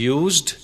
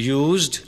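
No difference in how they are said.

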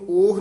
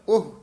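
First: The word is drawn out with an open vowel. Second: The word is said quickly with a short vowel. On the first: The speaker calls it wrong. "ਉਸਨੂੰ ਉਹ ਨਹੀਂ ਕਹਿਣਾ" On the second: The speaker calls it right. "ਉਹਨੂੰ ਕਹਿਣਾ ਉਹ, ਛੇਤੀ ਬੋਲ ਦੇਣਾ"

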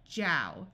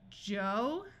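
First: The vowel is an 'ow' sound. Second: The vowel is a long 'oh' sound. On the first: "then the ow sound" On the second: "I usually do the O"

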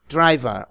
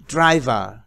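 Both takes have the same delivery.

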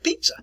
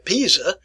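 First: The middle consonant is a sharp ts sound. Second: The middle consonant is a plain buzzing z sound. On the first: The speaker calls it right. "We pronounce it pizza. ... it is pronounced as T" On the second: The speaker calls it wrong. "we don't pronounce it a pizza"

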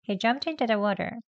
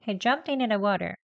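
First: The word into is reduced to a weak form. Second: The t in into is dropped, like inna. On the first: "약형이죠" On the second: "이내 합니다"

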